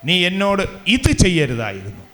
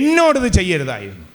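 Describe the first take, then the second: First: The stress falls on the word for this. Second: The stress falls on the word for me. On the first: The deed that was done matters most. "ആ ചെയ്തത് എന്താണോ അതിന് പ്രാധാന്യം കൊടുക്കുന്നതാണ് ഇത്" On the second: The person wronged matters most, not the other one. "അപ്പം എനിക്കാണ് അവിടെ പ്രാധാന്യം, അവനല്ല"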